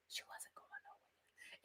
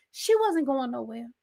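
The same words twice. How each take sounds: First: Slow, barely audible whisper; dramatic whisper. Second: Said in the usual way. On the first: Pretend. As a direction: whisper it slowly for dramatic effect. Repeats the line as a whisper.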